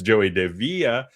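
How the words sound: The name is said with a Spanish pronunciation. "If you're doing it in Spanish"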